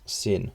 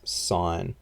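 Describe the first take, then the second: First: The word sounds like sin, with a short vowel. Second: The word sounds like sign, with a long vowel. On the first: The speaker calls it wrong. "It's not sin" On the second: The speaker calls it right. "sine is pronounced like sine, like a letter post sign"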